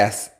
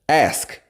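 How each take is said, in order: First: The word is said without a K sound. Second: The word is said with a K sound.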